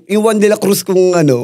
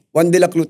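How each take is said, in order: First: Said in the usual way. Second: "Juan de la Cruz" with "Cruz" said like "Clu"; lisped name. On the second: Retold or imitated. Showing her own lisp on "Juan de la Cruz", "Cruz" as "Clu". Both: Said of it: "Dahil bulol nga ako".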